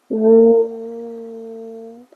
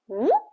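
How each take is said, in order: First: The pitch stays high and level. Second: The pitch rises like a question. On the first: "Everything is flat" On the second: "Go up"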